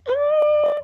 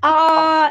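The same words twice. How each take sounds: First: It is said in a tiny, small voice. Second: It is said in a normal voice.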